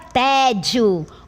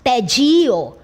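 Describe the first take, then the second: First: The stress is on the first syllable. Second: The stress is on the last syllable. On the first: The speaker calls it right. "Té é a sílaba tônica, porque esta é a forma correta" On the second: The speaker calls it wrong. "Eu não poderia dizer tedio"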